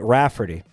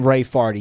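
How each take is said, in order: First: It is said as the usual name Rafferty. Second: It is said as the respelled variant name. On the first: This is the intended family name. "you would not pronounce it Rafferty" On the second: This is how the new spelling would be read. "there's no universe where you'd see that and you'd pronounce it in any other way than"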